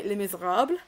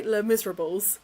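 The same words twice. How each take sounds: First: "Les Miserables" tried in French, nasal "le", "mee-zay-rabl"; attempted French pronunciation. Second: "Les Miserables" said the English way, "lez miz-er-ah-bulz"; "Les Miserables" read flatly with English sounds, no French vowels; anglicised French title. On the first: To chat viewers, trying to say "Les Miserables" properly in French. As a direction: give "Les Miserables" a proper French go, trimming the final syllables. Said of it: "The other wolf really wants to say it properly".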